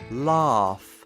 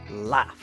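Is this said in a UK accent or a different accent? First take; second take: UK; different. First: It is said the way some UK speakers say it. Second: It is said in a different, non-UK way. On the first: "Some people in the U K say laugh" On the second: "But I say laugh"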